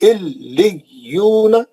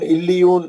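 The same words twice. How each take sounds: First: The doubled consonant is held and clearly separated. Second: The doubled consonant is rushed over quickly. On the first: The speaker calls it right. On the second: The speaker calls it wrong.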